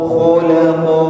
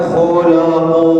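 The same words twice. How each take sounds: No difference in how they are said.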